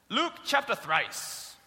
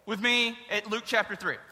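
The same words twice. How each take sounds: First: Slow, grand "thrice" in place of three; mock King James "thrice", said slowly; mock old-fashioned thrice. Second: Said in the usual way. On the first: Shown as a demonstration. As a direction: drawl "Luke chapter thrice" like old scripture. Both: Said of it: "That means three".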